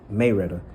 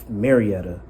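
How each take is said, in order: First: It uses the local pronunciation, not following the spelling. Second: It is pronounced just as the spelling suggests. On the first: The speaker is from the area. "that's how the people who are from there and the older people say it" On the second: The speaker is not from the area. "for the people who are not, ... when you look at the the spelling of it"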